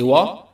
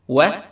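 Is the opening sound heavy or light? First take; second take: heavy; light. First: The opening sound is heavy and full. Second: The opening sound is light and thin. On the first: The speaker calls it wrong. "Don't say wa" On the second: The speaker calls it right. "Start with و مستفلة"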